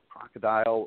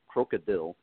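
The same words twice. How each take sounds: First: The word has its usual English pronunciation. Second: The word has a Russian-style pronunciation.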